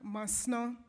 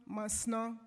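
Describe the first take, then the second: No difference in how they are said.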